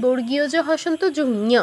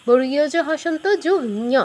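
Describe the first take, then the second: Both takes have the same delivery.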